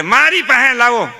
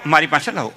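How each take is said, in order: First: Put-on louder, higher grab for the baby; mock eager shout of give him to me; competing relative. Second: Another relative. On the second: Retold or imitated. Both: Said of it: "બધા હરીફાઈ કરે".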